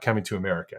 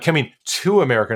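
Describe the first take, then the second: First: It is said in a plain voice. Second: It is said in a put-on accent. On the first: The speaker calls it wrong. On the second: The speaker calls it right. "you have to accent it"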